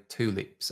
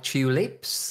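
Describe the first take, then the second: First: TULIPS starting with a plain "too" sound; American pronunciation. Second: TULIPS starting with a "choo" sound; British pronunciation. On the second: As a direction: say TULIPS as "CHEW-lips". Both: Shown as a demonstration. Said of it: "Americans would say tulips".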